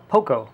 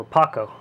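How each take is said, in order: First: "Poco" pronounced POH-koh; pronunciation variant. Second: "Paco" pronounced PAH-koh; pronunciation variant. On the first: Reviewer offering one way to say the figure's name, "Poco" as POH-koh. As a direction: say "Poco" with a long OH first vowel. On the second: Reviewer offering the other way to say the figure's name, "Paco" as PAH-koh. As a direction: say "Paco" with an open AH first vowel. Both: Shown as a demonstration. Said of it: "which way you wanna pronounce it".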